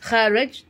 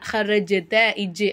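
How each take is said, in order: First: The j is cut short with no echo. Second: The j bounces with a short echoing vowel. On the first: The speaker calls it wrong. "ஹரஜ்த அப்படின்னு சொல்லாமல்" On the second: The speaker calls it right. "அப்படின்னு சொல்லிட்டு அசைக்கணும்"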